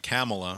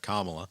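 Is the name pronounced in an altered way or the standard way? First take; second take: altered; standard. First: The name is pronounced in an altered way. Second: The name is pronounced in the standard way. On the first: The speaker calls it wrong. "he gives it a, a Kamala" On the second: The speaker calls it right. "instead of a, a Kamala"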